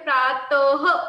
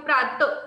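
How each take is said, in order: First: The word ends with a breathy h sound. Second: The word ends without a final h sound. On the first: "जेव्हा हे बिंदू तुमच्या समोर आहे तर याचं उच्चारण काय होते?" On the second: "जेव्हा हे बिंदू नाही होता तर तुम्ही काय बोलता?"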